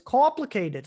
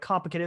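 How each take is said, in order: First: It is said with an imitated Canadian O vowel. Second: It is said in the speaker's ordinary accent. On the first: "Like he uses like the O sound" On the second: "instead of like complicated"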